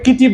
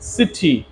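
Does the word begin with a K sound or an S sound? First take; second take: K sound; S sound. First: The word begins with a K sound. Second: The word begins with an S sound. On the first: The speaker calls it wrong. "আমরা এটাকে কিটি বলতে পারি না" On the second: The speaker calls it right. "C এর পর যদি ই থাকে বা আই থাকে বা ওয়াই থাকে তাহলে এস উচ্চারণ হবে"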